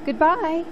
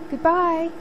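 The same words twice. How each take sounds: First: High, loud call into the wind; calling goodbye. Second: High, loud call, held on; calling goodbye. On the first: Sophie calling goodbye from the rising sleigh, loud. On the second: Sophie calling goodbye again from the sleigh, loud. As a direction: call again as she flies away. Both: A narrator's reading. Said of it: "she called".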